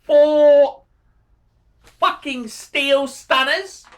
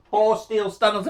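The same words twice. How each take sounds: First: Big, drawn-out, higher and louder on four; emphatic rave. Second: Said in the usual way. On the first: Real, not acted. Praising a viewer's four watches, slow emphatic rave. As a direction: savour each word like a prize.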